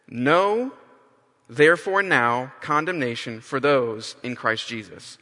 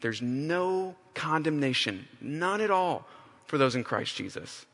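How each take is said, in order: First: NO punched loud, then the rest of the verse read out; emphatic no. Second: Softer, slower "no condemnation", said gently; quiet answer. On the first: Preacher reading the verse to the church with a punchy, emphatic no. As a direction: hit the word "No" hard and loud at the start. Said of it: "that word no is very emphatic". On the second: Paul answering himself, softly reassuring after his lament. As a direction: speak "none at all" as quiet reassurance. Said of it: "His answer to himself is". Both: Shown as a demonstration.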